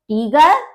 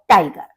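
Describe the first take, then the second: First: The first vowel is a long 'ee' sound. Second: The first vowel is an 'eye' sound. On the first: This is the German pronunciation. "उसका pronunciation different है" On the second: This is the English pronunciation. "उसका pronunciation different है"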